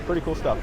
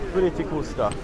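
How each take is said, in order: First: It is said in the speaker's ordinary accent. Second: It is said in a put-on Italian-French accent.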